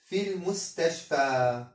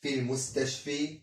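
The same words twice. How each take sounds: First: في المستشفى ending in a long open a sound, في clearly stressed; correct ending. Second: في المستشفي with a short final i sound instead of the long a; teacher models the wrong ending, المستشفي ending in a short i. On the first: المعلم ينطق في المستشفى صحيحا بألف ممدودة في آخرها. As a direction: say المستشفى with the final alif maqsura as a long a. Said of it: "خطأ". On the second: المعلم ينطق المستشفي خطأ بياء قصيرة في آخرها. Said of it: "لا نقول المستشفي". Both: Shown as a demonstration.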